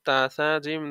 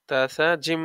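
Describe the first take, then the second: No difference in how they are said.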